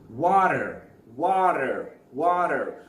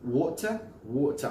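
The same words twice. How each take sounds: First: WATER as "wah-derr", loud with a strong final r; American pronunciation. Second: WATER as "waw-tuh", t kept, r dropped; British pronunciation. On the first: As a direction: exaggerate WATER with d-like t and full r. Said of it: "Or for example". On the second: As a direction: say WATER British-style, with a crisp t. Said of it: "I think in British sound it's water". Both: Shown as a demonstration.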